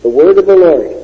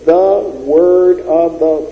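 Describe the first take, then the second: First: Loud, weighty "The word of the Lord"; emphasized phrase. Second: Drawn out word by word, "The word of the"; slow deliberate phrase. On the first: Preacher hammering the full phrase home, loud. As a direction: punch out "The word of the Lord" louder. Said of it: "five words". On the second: Preacher counting out the little words, very slow. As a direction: spell out "The word of the" very slowly. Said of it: "those four little words". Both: Shown as a demonstration.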